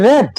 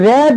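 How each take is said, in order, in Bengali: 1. স্বরধ্বনিটি হ্রস্ব, যেমন 'red'-এ। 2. স্বরধ্বনিটি হ্রস্ব, যেমন 'red'-এ।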